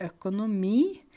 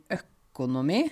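First: Said in the usual way. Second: ØKONOMI slow, weight on the first syllable; dialect stress. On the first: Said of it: "ikke økonomi". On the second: Shown as a demonstration. Teacher showing home pronunciation, first-syllable stress on ØKONOMI. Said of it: "Vi sier økonomi".

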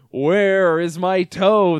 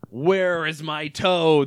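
First: Slow, loud spooky moan; loud, slow ghostly groan. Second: Slow, mild spooky groan; understated slow ghostly moan. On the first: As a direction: draw it out like a ghost at the door. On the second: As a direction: drag the words like a ghost. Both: A narrator's reading. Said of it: "the voice groaned".

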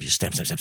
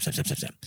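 First: Soft, dropping rhythmic stamps; soft mimicked stamping; quiet stamping. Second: Whispered, fading stamp sounds; whispering the last stamps away. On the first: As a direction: tap the words out quietly like a stamp. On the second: Retold or imitated. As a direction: let the stamps fade to a whisper. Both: Mimics officer stamping carelessly.

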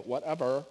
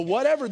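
First: "Whatever." tossed off low and falling, brushing it aside; dismissive whatever. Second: "whatever" raised and louder, every syllable given weight; stressed whatever. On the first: Preacher mocking the everyday brush-off, a dismissive "Whatever.". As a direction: shrug off "Whatever." like a bored teenager. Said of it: "they go". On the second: Preacher setting Jesus' word against the brush-off, stressing "whatever". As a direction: lean hard into "whatever" as an all-inclusive word. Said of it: "That is not the "whatever" we're talking about". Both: Shown as a demonstration.

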